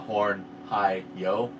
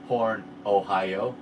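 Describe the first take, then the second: First: It sounds like 'high low', two separate syllables. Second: It sounds like the word 'Ohio'. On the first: "they were doing a horn hi yo" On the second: "but they would say horn Ohio"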